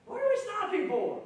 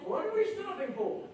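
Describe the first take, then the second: First: Much higher, loud exasperated whine; high, indignant what are we stopping for; impatient complaint. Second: Much higher, put-on mocking whine; lightly mocking the hurried believer; impatient complaint. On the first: Retold or imitated. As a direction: fuss at the holdup. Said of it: "I would have probably said". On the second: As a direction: tease the listeners with their own impatience. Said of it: "Have you ever said that".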